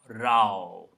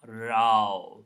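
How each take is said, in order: First: The vowel rhymes with cow. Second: The same.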